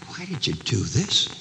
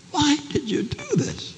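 First: Said in the usual way. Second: High, bewildered pleading; pleading question. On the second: Acted. Rescued wife asking her husband why, high pleading question. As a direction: ask it high, needing an answer.

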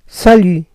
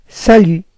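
First: Salut with the French u and silent t; sa-LU, falling. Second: Salut repeated with rounded French u; sa-LU, silent t. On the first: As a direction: say salut the Paris way. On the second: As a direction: model salut for learners. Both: Shown as a demonstration. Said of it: "En francés".

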